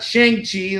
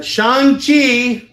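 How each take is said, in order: First: "Shang-Chi" said as SHANG-chee, "a" as in "bang"; old-fashioned pronunciation. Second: "Shang-Chi" as SHAHNG-chee, loud, high and drawn out; correct pronunciation. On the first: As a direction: say "Shang-Chi" with the flat vowel of "shank". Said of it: "like it was pronounced back in the day". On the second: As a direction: belt out "Shang-Chi" slowly with an open "ah". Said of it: "not Shang-Chi". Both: Shown as a demonstration.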